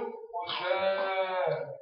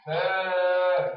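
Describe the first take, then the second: First: فاء dragged out very slow; long drawn فاء. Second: فاء stretched very long; long drawn فاء. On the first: Teacher asking the pupil to say فاء, drawn out. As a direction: drag out فاء for them to copy. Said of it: "كيفاش يقول؟". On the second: Teacher showing how the pupil should say فاء, drawn out. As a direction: hold the vowel of فاء. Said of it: "ولا يقول". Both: Shown as a demonstration.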